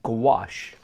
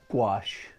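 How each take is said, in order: First: The word is pronounced with exaggerated care. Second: The word is pronounced in a normal way.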